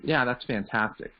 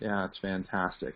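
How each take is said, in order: First: It is said with medium, ho-hum energy. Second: It is said with low, lifeless energy.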